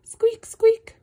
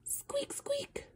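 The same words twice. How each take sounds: First: Much higher and louder squeak; shrieking squeak of a mouse. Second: Much higher, whispered squeak; tiny whispered mouse squeak. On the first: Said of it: "Mouses say squeak". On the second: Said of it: "All I know is mice go". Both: Acted.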